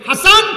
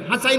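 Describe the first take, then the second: First: It ends in a plain -an sound, ha-san. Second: It ends in an -ain sound, ha-sain. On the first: The speaker calls it right. "হাসান আর হুসাইন" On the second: The speaker calls it wrong. "হাসাইন হুসাইন না"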